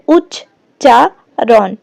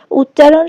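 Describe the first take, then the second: First: উচ্চারণ drawn out very slowly, syllable by syllable; teacher dividing উচ্চারণ slowly into syllables; slow syllable split. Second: Said in the usual way. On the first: Shown as a demonstration. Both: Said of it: "দল বিশ্লেষণ করলে কি হয়".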